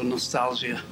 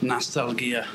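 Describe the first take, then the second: First: The word is said with English pronunciation. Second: The word is said with Russian pronunciation.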